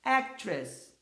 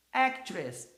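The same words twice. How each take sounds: First: Actress with stress on AC; English word actress. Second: Actress repeated; English word actress. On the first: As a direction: model actress for the class. (pronúncia de "actress") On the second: (repetição de "Actress") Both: Shown as a demonstration.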